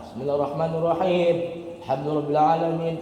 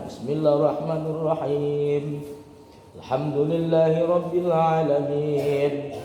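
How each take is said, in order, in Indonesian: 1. Ayat-ayatnya tersambung tanpa jeda. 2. Ada jeda sedang yang memisahkan kedua ayat. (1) "Tak sempat bernafas" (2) "Yang sedang-sedang aja"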